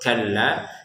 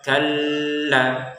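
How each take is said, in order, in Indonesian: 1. Huruf l ganda tidak ditahan. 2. Huruf l ganda ditahan panjang. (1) "tidak usah ditahan tasdidnya. Jadi langsung kalla" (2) "jangan kita baca kalla ya"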